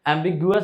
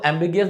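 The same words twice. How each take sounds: First: Ambiguous said as "am-big-YOO-us"; second accepted reading of ambiguous, ending "gu-us"; alternate pronunciation. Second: Ambiguous said as "am-BIG-ee-us"; one accepted reading of ambiguous, ending "gi-us"; alternate pronunciation. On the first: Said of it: "भी पढ़ सकते हैं". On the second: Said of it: "ठीक है, दोनों पढ़". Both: Shown as a demonstration.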